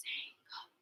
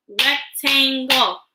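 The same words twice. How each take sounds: First: "Rectangle" whispered very softly in separate parts; whispered syllables. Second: "Rectangle" voiced slowly in separate beats; split into syllables. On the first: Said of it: "Whisper with me". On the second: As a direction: say "Rectangle" aloud, part by part. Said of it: "Break words into parts with me". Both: Shown as a demonstration.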